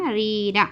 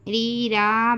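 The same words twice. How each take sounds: First: रीरा with the last vowel kept short; रीरा ending on a short, unstretched vowel; correct reading. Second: रीरा with its vowels dragged long; wrongly drawn-out. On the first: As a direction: say रीरा without dragging the final आ. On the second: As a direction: stretch the vowels of रीरा, the mistake to avoid. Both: Shown as a demonstration. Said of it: "बोलकर नहीं खींचना".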